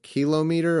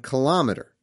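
First: It is said in a British way. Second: It is said in an American way. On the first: The speaker calls it wrong. "you guys, don't you say like kilometer" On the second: The speaker calls it right. "we do better on kilometer"

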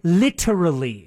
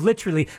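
First: The T sound is pronounced crisply and emphasized. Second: The T sound is soft and not emphasized. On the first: "So they would probably say literally. ... Emphasizing the T" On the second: "instead of literally"

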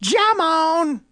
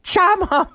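First: The name starts with a j sound. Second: The name starts with a ch sound. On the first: "If it's a J, it'd be Shamon" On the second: "If it's like CH, like Chattanooga, it'd be like Shamon"

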